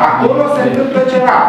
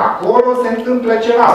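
First: Bigger mysterious hint. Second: Quick, higher, teasing mystery; mysterious hint. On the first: Lecturer hamming up the mystery for students, higher and quicker. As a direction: play up the secret even more. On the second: Lecturer teasing students about the room next door, quick and higher. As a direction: dangle a secret in front of the class. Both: Shown as a demonstration.

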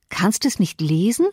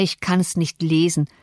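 First: "Kannst es nicht lesen?" with the voice rising in disbelief on es; stunned question, mildly voiced; Cathy can't believe her companion can't read, a light incredulous rise. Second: Said in the usual way. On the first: A narrator's reading. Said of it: "rief Cathy". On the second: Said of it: "Harrington starrte hinauf und kratzte sich den Kopf".

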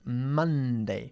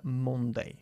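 First: "Monday" as MUN-day, slow, open short u; correct pronunciation. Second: "Monday" with a round o, MON-day; wrong pronunciation. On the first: Teacher correcting a student, "Monday" slowly as MUN-dei. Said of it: "No se pronuncia Monday". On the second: Teacher showing a student the mistake, "Monday" mispronounced as MON-dei. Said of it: "No se pronuncia". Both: Shown as a demonstration.

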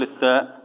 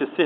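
First: الساء with the tongue out between the teeth; correct ثاء. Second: السه with the tongue kept inside, like a soft s; wrong letter. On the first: Sheikh shows the right ثاء, tongue out between the teeth. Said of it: "نقول الساء". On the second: Sheikh shows the wrong ثاء, tongue inside. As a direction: say السه with the tongue behind the teeth. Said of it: "ما نقولش السه". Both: Shown as a demonstration.

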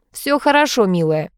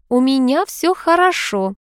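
First: Forced, put-on cheer; fake cheerful. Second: Slow, composed hint of reassurance; mild calm front. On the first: Husband soothes his wife with forced cheerfulness. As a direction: cover the awkward moment with fake brightness. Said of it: "наигранно весёлым тоном". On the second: Lady signals all is fine, calm and slow. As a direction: say it as if nothing is wrong. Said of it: "Весь её вид говорил". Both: A narrator's reading.

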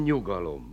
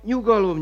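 First: "nyugalom" dropped low and much softer; "nyugalom" almost murmured, settling her; "nyugalom" repeated quietly, falling away. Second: "nyugalom" lifted high, then falling; "nyugalom" said up high to calm her; "nyugalom" first rising high, urging calm; soothing call. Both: Acted. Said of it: "Csak nyugalom".

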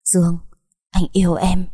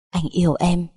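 First: Insistent, deliberate "anh yêu em"; emphatic confession. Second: Understated, sweet declaration of love; a lover's unforced "Anh yêu em"; tender confession. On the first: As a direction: press home each word of "anh yêu em". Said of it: "Thành Đăng liền nhấn mạnh". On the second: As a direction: say "Anh yêu em" gently, at an easy level. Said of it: "ngọt ngào da diết". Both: A narrator's reading.

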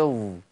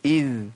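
First: إذ with lips pouted, turning ظ; pouted dhal. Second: إذ with lips slightly smiling; light dhal. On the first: Teacher shows the heavy error: ذ pouted into ظاء. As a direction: round the lips on إذ so it sounds like ظاء. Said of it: "لو بوزت هتبقى إيه". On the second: Teacher shows the lowered tongue: ذ light. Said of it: "الابتسامة عندي تبقى بسيطة". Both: Shown as a demonstration.

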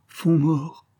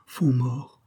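First: Second take higher, ending on a rising cry; the fear breaks upward; a touch of panic in the rise; terrified repeat. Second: First take held back and quieter, a touch of dread; mild terror, barely voiced; terrified repeat. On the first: Acted. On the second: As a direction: murmur the name in fear. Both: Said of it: "en répétant avec terreur".

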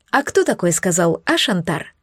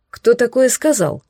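First: «кто» stressed and pushed forward; «кто» gets the stress, «такое» stays light. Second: «такое» stressed with a falling tune; «такое» gets the stress, not «кто». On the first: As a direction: hit «кто», pointed at Shantar. Pointed question, stress on кто. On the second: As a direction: lean on «такое», indignant. Indignant question, stress on такое. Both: A narrator's reading.

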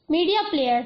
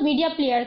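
First: Mildly puzzled echo of the words; puzzled surprise. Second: Said in the usual way. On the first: A narrator's reading. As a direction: read it back with a touch of astonishment. (ہلکے اچنبھے سے) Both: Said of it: "اچنبھے سے".

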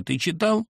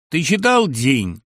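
First: High rising demand, ты ЧИТАЛ pitched up; anxious mother. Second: Slow, loud question, ЧИТАЛ drawn out and falling; hearty pal asking. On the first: Mother demanding of her son, high rising ЧИТАЛ. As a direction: fling the question upward at him. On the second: Friend asking on the phone, slow loud falling ЧИТАЛ. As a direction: ask it slowly, matter-of-fact. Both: Acted.

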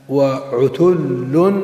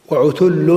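First: وعتل spelled out slowly with a lift on the last syllable; slowly drawn out. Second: Said in the usual way. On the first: Shown as a demonstration. Teacher slowly sounding out وعتل for students. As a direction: stretch وعتل very slowly, every sound long, rising at the end. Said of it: "teacher drawing out example word".

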